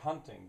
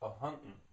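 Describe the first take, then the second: First: The word ends with a full g sound. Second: An extra syllable is added and the g dropped.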